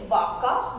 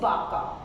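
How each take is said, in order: First: It begins with a buzzing v sound. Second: It begins with a b sound. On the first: "here it's vaca" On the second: "we pronounce in Spanish as baca"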